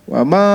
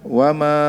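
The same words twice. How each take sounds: First: The word 'ma' is said on a high pitch. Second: The word 'ma' is said on a low pitch. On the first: It negates: it means 'not'. "kalau ma nafiyah nadanya tinggi" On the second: It is a relative pronoun meaning 'that which'. "Tapi kalau mausulah"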